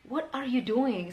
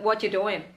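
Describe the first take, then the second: First: The word 'are' is clearly pronounced. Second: The word 'are' is dropped. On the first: The speaker really wants to know because something seems wrong. "ketika kita bener-bener pengen tahu ini orang ngapain" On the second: The speaker is just asking casually. "Tapi kalau sekedar iseng, cukup dengan what you doing"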